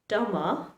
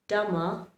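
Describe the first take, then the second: The two takes are said the same way.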